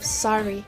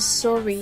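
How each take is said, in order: First: The first vowel is an 'ah' sound. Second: The first vowel is an 'oh' sound. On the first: This is the American pronunciation. "instead of sorry" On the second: This is the Canadian pronunciation. "So they pronounce sorry"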